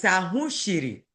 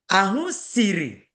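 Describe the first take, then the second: First: "shiri" with a hushing sh; "Ahụ shiri" with the sh clearly shown; dialect "sh" pronunciation. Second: "siri" with a plain hissed s, slow; "Ahụ siri" drawn out with a clear s; standard "s" pronunciation. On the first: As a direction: contrast "shiri" using sh in place of s. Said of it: "That's Ebuka's dialect". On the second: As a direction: slowly contrast "siri" using s, not sh. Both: Shown as a demonstration.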